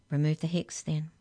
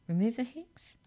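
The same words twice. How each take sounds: First: Firm, level command; ordering. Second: "Remove the hex" as a question, rising high on "hex". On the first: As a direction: give a controlled order in your usual pitch. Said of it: "ordered the Hex Checker". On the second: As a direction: ask "Remove the hex?" with a high, climbing end. Hex checker asks as a question. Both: A narrator's reading.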